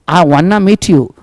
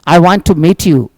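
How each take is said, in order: First: 'Want to' is blended together into 'wanna'. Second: 'Want to' is said as two full words.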